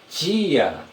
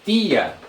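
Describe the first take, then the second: First: The t sounds like a ch sound. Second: The t is a plain t sound. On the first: This is how people from the south or Rio say it. "eles falam tia ... É como se fosse o D com o som do J" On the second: This is how people in the speaker's region say it. "para nós aqui, nós temos tia"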